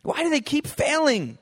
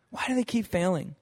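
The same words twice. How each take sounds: First: Exasperated. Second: Said in the usual way. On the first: Retold or imitated. Repeated question, first take.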